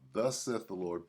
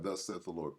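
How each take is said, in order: First: It is read at a slow pace. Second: It is read at a quicker pace.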